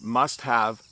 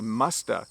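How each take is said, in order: First: The word have is said in full. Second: The word have becomes just an uh sound. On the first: This is the written form. "The correct way to write these would be" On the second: This is a very informal spoken form. "Sometimes you'll even hear people say"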